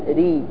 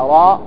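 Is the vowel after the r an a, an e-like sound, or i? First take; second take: i; a. First: The vowel after r is a full i. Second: The vowel after r is an open a. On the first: "ولا ري" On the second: "لا راء"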